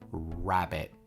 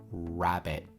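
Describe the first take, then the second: Both takes have the same delivery.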